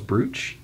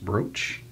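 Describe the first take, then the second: First: The vowel is a long 'oo' sound. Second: The vowel is an 'oh' sound, like broach. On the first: "I thought it was brooch" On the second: "Kate said it's pronounced brooch"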